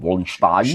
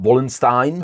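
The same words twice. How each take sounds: First: The name is said with a German-style sound. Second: The name is said with an English-style sound. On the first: "the Germans would pronounce him Wallenstein" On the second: "with an S"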